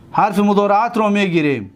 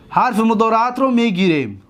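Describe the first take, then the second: No difference in how they are said.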